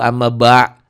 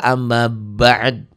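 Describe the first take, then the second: First: The phrase ends at the glottal stop. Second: The phrase ends in a bare 'd' sound. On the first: The speaker calls it wrong. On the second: The speaker calls it right. "gitu ya"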